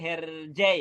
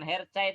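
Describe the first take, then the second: First: The middle consonant sounds like 'j'. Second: The middle consonant sounds like 'ch'. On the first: The speaker calls it right. "yang benar ... tapi Herjai" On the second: The speaker calls it wrong. "bacanya yang benar bukan Hercai"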